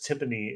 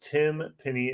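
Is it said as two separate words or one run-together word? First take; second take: one word; two words. First: It is said as one run-together word. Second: It is said as two separate words.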